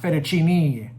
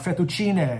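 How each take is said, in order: First: The word is given an anglicized pronunciation. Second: The word is given its Italian pronunciation. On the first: The speaker calls it wrong. "not fettuccine" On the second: The speaker calls it right. "it's uh, uh, fettuccine"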